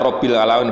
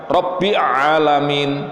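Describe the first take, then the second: First: An l sound links Rabbi to Alamin. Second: No l sound links Rabbi to Alamin. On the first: The speaker calls it right. "itu lamnya mati. Sehingga dibaca Rabbil Alamin" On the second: The speaker calls it wrong. "bukan Rabbi Alamin"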